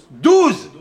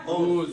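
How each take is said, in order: First: Douze high and loud, a firm falling close; emphatic answer. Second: Said in the usual way. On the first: Shown as a demonstration. Rabbi answering his own question to the class, with emphasis. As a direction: proclaim Douze like the answer to a riddle.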